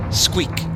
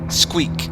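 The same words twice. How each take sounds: The two takes are said the same way.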